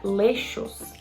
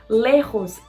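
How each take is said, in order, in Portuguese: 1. A consoante do meio é um som suave de sh. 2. A consoante do meio é um som gutural e rascante. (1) "era muito comum o som de sh" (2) "esse som mais parecendo um R para dentro"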